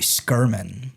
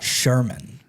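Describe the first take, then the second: First: The name begins with an sk sound. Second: The name begins with an sh sound. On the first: The speaker calls it right. "His last name is actually Skirman" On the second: The speaker calls it wrong. "not Sherman"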